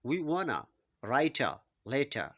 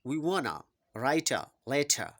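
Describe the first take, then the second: First: 'Want to' is run together as 'wanna'. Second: The same.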